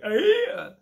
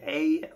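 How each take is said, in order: First: High, loud mock Geordie; bad Geordie accent. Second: Slightly raised mock Scouse; bad Scouse accent. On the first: Comic sounding like a moron, bad Geordie accent. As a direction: shoot it up in exaggerated Geordie. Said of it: "everyone loves doing a Geordie". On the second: Comic mocking people who think they can, bad Scouse accent. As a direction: try a dodgy Scouse accent. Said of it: "everyone thinks they can do Scouse".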